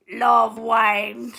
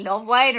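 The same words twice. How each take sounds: First: LOVE drawn right out, very slowly; heavy stress on LOVE. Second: Said in the usual way. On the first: Shown as a demonstration. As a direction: lean hard and long on "love". Contrasts casual liking with really loving.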